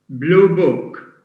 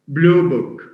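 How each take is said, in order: First: The stress falls on the second word. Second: The stress falls on the first word. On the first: A book whose color is blue. "blue book with stress on book" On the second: An examination booklet. "if we stress blue"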